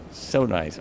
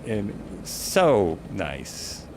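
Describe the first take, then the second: First: Said in the usual way. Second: Slow, softer, drawn-out so nice; dreamy slow murmur of delight; savoring it. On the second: Real, not acted. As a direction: linger on it, stretching the words. Admiring the view from helicopter.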